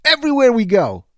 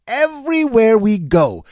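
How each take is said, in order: First: Said in the usual way. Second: "Everywhere" drawn out slowly, each word weighted; slow it down and lean on "Everywhere"; slow, pressed repeat of "Everywhere we go"; slow emphatic repeat. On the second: Shown as a demonstration. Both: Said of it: "repeats for emphasis".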